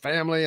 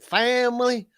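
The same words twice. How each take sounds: First: The word is said in a plain accent. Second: The word is said in a Southern drawl. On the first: This is how he talked before moving south. "talking about family up at Notre Dame" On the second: This is how he talks after moving south. "and then family"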